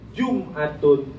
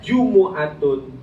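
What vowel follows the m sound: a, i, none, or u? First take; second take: none; u. First: The m is followed by no vowel. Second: The m is followed by a u vowel. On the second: "dengan mendomahkan mim"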